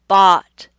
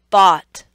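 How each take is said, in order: The two takes are said the same way.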